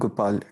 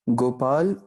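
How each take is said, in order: First: The word carries metrical weight four, one lighter. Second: The word carries metrical weight five, one heavier. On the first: "गोपाल का कावतुल वज़न क्या है? चार है" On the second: "गोपाल का कावतुल वज़न क्या है? पाँच है"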